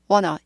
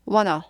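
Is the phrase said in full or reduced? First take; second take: reduced; reduced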